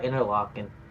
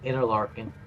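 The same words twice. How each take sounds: First: The word is said without an R sound. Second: The word is said with an R sound.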